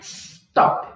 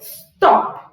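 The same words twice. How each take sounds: First: The S sound is strong and stands out. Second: The S is barely heard; the O is strong. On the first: The speaker calls it wrong. "Não é stop" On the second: The speaker calls it right. "O S nem aparece direito. Então, esse O vem forte"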